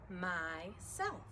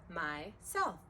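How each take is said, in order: No difference in how they are said.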